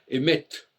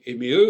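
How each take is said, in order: First: The word ends with a clear t sound. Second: The word ends in a vowel, no final consonant. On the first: The feminine is audibly different from the masculine. The speaker calls it right. "on devrait dire" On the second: The feminine sounds the same as the masculine. The speaker calls it wrong. "On ne devrait pas dire"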